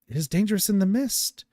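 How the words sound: It is spoken in an odd put-on voice.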